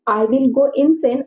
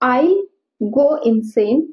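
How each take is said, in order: First: The words 'I will' are said in full. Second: The words 'I will' are contracted to 'I'll'.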